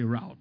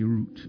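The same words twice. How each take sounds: First: It is pronounced the American way. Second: It is pronounced the British way. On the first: "The Americans say route" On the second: "We British say route"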